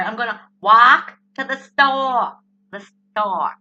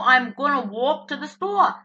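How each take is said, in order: First: "walk" with an open ah vowel, overdone; attempted standard pronunciation. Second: "walk" and "store" in her New Jersey vowels; New Jersey accent. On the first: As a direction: try "store" without the Jersey aw, exaggerated. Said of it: "I still can't do it right". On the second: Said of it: "People tell me I speak New Jersey". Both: Shown as a demonstration.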